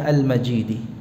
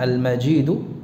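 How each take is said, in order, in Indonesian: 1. Kata ini diakhiri dengan vokal i. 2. Kata ini diakhiri dengan vokal u. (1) "dengan mengkasrahkan dalnya" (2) "mendhammahkan dalnya"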